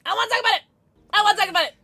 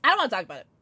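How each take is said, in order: First: Higher, louder playful whine; mock whine. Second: Said in the usual way. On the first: Shown as a demonstration. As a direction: whine it like a kid. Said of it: "repeated, higher and louder". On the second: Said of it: "repeated with different delivery".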